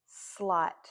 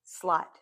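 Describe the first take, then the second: First: "slot" stretched so each sound shows; blended slowly. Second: Said in the usual way. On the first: Shown as a demonstration.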